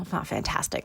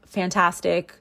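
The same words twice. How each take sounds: First: Quiet unvoiced aside; whispered correction. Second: Said in the usual way. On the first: Real, not acted. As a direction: take it back under your breath.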